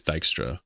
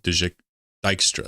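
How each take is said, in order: First: "Dijkstra" with a hard "Dike-stra" start; correct pronunciation. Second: "Dijkstra" tried as "Dike-stra"; old wrong pronunciation. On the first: Shown as a demonstration. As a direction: say "Dijkstra" the accepted way. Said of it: "people say it's Dijkstra". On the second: Retold or imitated. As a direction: start "Dijk-", then say it all as "Dikestra". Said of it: "I was saying, like".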